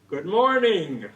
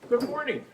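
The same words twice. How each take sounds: First: It is said emphatically, with lots of energy. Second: It is said plainly, with little energy.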